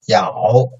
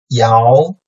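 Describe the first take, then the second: First: The pitch dips low, then rises slightly. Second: The pitch rises from mid to high.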